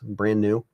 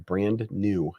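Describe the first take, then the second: First: The D in brand is dropped. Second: The D in brand is clearly pronounced. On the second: "if you're over pronunciating"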